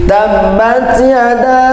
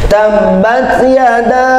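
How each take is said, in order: Both takes have the same delivery.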